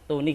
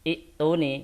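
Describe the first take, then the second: First: The word is joined on, starting with 't'. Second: The word starts fresh with a long 'i' vowel. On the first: The word is read joined to the previous word. "Kalau disambung kan menjadi fis samawati tuni" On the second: Reading restarts at this word. "kalau kita ibtidak dari ituni berarti menjadi mad badal"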